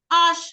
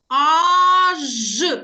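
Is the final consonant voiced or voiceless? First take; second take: voiceless; voiced. First: The final consonant is devoiced, like sh. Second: The final consonant is clearly voiced, like zh. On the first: "А якщо ми будемо їх говорити швидко, послухайте" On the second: "вимовимо правильно дзвінки приголосні звуки"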